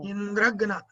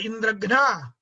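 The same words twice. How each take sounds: First: The stress falls on the first part, Indra. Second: The stress falls on the final part, ghna. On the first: The killer of Indra. "the stress has to be on Indra" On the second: The one killed by Indra. "that means he who is killed by Indra"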